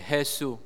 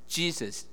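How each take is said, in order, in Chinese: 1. 这个名字按西班牙语发音。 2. 这个名字按英语发音。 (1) "但是发音是Jesus" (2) "原来真的是Jesus"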